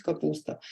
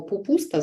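First: Said in the usual way. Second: «пупуста» with п in place of к; «пупуста» childish echoing; child's slip. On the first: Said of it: "замість". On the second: Shown as a demonstration. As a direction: start «пупуста» with p like a toddler. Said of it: "або".

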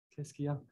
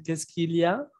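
First: Fast, swallowed. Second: Each syllable spelled out with the L heard; careful, clear. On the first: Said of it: "no tienen que decirlo así tan rápido". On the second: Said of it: "Pueden decir". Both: Shown as a demonstration.

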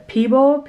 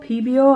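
First: "Peebo" as two syllables, PEE-bo; unsure pronunciation. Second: "Peebo" as three syllables, PEE-bee-oh; higher second try at "Peebo", adding an ee before oh; alternative pronunciation. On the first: Reading the paint brand to viewers, unsure pronunciation of "Peebo". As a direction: try "Peebo" with no glide before the final o. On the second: Guessing the paint brand aloud, alternative pronunciation of "Peebo". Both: Real, not acted. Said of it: "I don't know how you say that".

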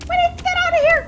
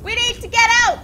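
First: Very high, loud panicked shriek. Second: Urgent, high panicked shout. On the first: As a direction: scream it in rising panic. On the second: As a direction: yell to escape, alarmed. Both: Real, not acted. Panicking in a dangerous cave.

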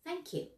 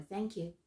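First: High, soft thank you; higher-voiced, softer thanks; different tone. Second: Different tone. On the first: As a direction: say it lightly, pitched up high. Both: Shown as a demonstration. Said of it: "can be said in many different ways".

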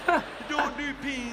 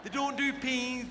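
First: Slow, loud, exaggerated mouthing; over-enunciate as if through a window; mouthing words to a friend outside a window; talking through glass. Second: Through glass. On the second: Retold or imitated. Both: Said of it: "You gotta talk like that through glass".

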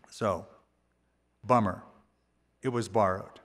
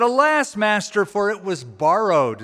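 First: Low, soft and glum; deflated. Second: High cry of despair on Alas, then pleading; mock despair. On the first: Acted. Prophet moping to himself over the lost axe, deflated. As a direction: let the air out, all gloom. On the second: Prophet pleading with Elisha over the borrowed axe, despairing. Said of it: "he cried out and said".

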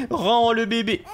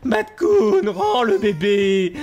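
First: Said in the usual way. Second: Loud, stretched-out order; shouting demand. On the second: Real, not acted. Ordre crié au raton. (exiger en criant)

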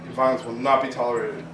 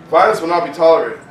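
First: Said in the usual way. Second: Loud, emphatic warning; forceful declaration. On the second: Real, not acted. Repeating the flyer's warning, now loud and hard. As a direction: slam the words down hard.

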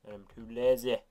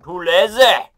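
First: Said in the usual way. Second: Louder and higher, proud; loud declaration. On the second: Shown as a demonstration. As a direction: shout the confession out. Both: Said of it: "Which is actually true".

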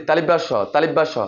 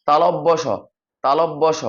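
First: তালিব্যাস স run together as ta-lib-bash-sho; quick folk name তালিব্যাস স; common mispronunciation. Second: তালব্য স as ta-lob-bo sho; careful, separated syllables on তালব্য স; correct letter name. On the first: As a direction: say তালিব্যাস স with an i and a long a. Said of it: "উচ্চারণ করে কি". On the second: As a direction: open o vowels in তালব্য স. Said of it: "এটা সঠিক উচ্চারণ হচ্ছে যে". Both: Shown as a demonstration.

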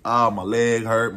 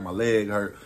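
First: Slow, loud hammed-up groan on "Ah, my leg hurt"; faked pain. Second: Said in the usual way. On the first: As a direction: overplay the hurt to get rid of the police. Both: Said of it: "I'm lying".

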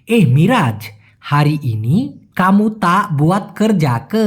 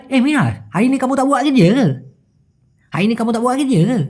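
First: Slow "হারি ইনি কামু তা বুয়াত কর যাক", every word separate; clear pronunciation. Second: Quick, higher, slurred Malaysian slang; Malaysian drawl. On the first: Teacher spelling out the Malay question, slowly and clearly. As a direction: sound out "কর যাক" in full, syllable by syllable. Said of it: "যদি আমি স্পষ্ট করে বলি". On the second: Teacher contrasting how Malaysians say it, in slang drawl. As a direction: run it together in Malaysian slang. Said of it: "যদি কিনা ওরা টানে বলে". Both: Shown as a demonstration.

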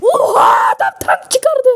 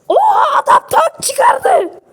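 First: Startled yelp, pitched up; shocked cry. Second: Higher, slow, stretched-out shout; shocked shout. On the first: Shocked that the other player brought out a tank. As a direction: blurt it out in shock. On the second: Stunned at the enemy player's tank, a long high shout. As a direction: wail it out in disbelief. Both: Real, not acted.

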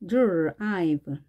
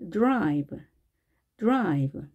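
First: 드라이브 drawn out as "dr… ive"; slowly part 드라이브 after the curled R; slow breakdown. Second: 드라이브 as one English syllable, drive; fuse D and R in 드라이브 at natural speed; blended "drive". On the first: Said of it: "이렇게 발음됩니다". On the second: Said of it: "두 개의 소리가 융화가 돼서". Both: Shown as a demonstration.

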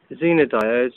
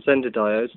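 First: "Zener" said as one way of pronouncing it, long EE; first pronunciation option. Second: "Zender" offered as the other pronunciation, short E; alternative pronunciation. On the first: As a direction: say "Zener" as ZEE-ner. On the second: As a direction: say "Zender" with a short ZEN at the start. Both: Shown as a demonstration. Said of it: "depending on how you want to pronounce it".

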